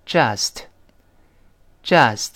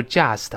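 First: "just" slow, clean j straight into uh; correct J. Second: "just" mispronounced "jiast" with a y glide; wrong just. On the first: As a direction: model "just" with no y glide after the j. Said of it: "这个字母J这里发J". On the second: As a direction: slip a y in after the j of "just". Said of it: "而不要读just". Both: Shown as a demonstration.

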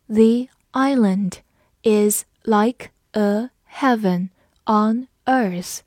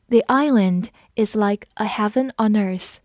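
First: Slow, word by word; slow read-along. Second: Said in the usual way. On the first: Shown as a demonstration. Teacher reading slowly for the class to repeat. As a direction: read it slowly for students to follow. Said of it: "跟着我慢读一遍". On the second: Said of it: "读快的时候".

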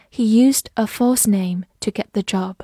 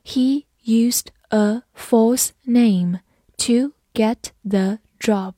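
First: Said in the usual way. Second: Slow, deliberate read; slow classroom model sentence. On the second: Shown as a demonstration. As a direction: stretch every word for learners. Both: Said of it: "好，我们慢读一遍。".

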